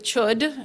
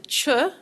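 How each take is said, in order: First: The word ends with a clear d sound. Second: The word ends in a vowel, no final d. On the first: The speaker calls it wrong. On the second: The speaker calls it right.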